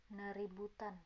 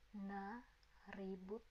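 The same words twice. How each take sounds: First: Said in the usual way. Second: "Naributan" slowly, with pauses between its parts; soft, slow teaching split of "Naributan"; broken into parts. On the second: Shown as a demonstration. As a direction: take "Naributan" apart piece by piece, softly.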